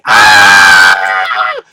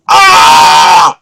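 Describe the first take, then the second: First: Wife yelling back in a deep alarmed howl; wife's yell. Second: Loud waking panic yell; groggy husband bellowing in alarm; startled yell. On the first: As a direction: lower loud panicked yell. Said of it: "And she's yelling". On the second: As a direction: yell like you just woke to chaos. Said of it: "So I start yelling". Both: Retold or imitated.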